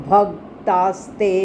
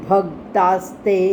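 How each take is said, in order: No difference in how they are said.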